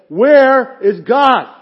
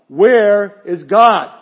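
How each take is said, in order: First: It is said loudest, almost shouted. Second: It is said sterner and louder than before.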